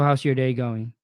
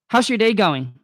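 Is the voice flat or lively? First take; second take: flat; lively. First: The voice is flat with little energy. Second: The voice is lively with lots of energy. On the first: The caller sounds uninterested. The speaker calls it wrong. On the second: The caller sounds engaged and personable. The speaker calls it right.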